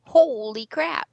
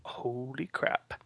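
First: Stunned, drawn out; slow amazed holy crap. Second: Slow awed whisper. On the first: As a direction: gasp it out slowly in awe. Reacting to more web updates. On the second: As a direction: breathe it out in a hush. Echoing the exclamation. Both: Real, not acted.

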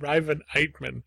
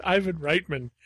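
First: "Riven Eitman" echoed as the slip, with the R moved onto the first name; wrong name. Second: "Ivan Reitman" said correctly, EYE-van RITE-man; correct name. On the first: Retold or imitated. Teasing co-host by repeating the mangled name "Riven Eitman". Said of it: "You said Riven Eitman". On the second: Shown as a demonstration. Correcting co-host's slip with the proper "Ivan Reitman". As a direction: set it straight: "Ivan Reitman", with the R on the surname. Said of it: "it's Ivan Reitman".

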